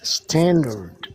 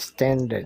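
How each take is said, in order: First: The R sound is strongly pronounced. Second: The R sound is soft or dropped. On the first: The speaker calls it right. "standard English with the glattering R" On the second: The speaker calls it wrong. "Do not speak standard"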